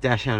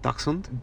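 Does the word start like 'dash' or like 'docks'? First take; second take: dash; docks. First: The first part sounds like 'dash'. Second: The first part sounds like 'docks'. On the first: The speaker calls it right. "it is dashhound" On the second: The speaker calls it wrong. "it's not dachshund"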